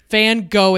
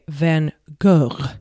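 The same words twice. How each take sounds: First: The name is pronounced the American English way. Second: The name is pronounced the French way. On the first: "I will not be pronouncing his last name correctly" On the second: "if it was in French, I would say"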